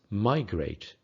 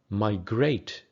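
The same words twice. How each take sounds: First: It has the American English stress pattern. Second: It has the British English stress pattern. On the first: "In American English" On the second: "In British English"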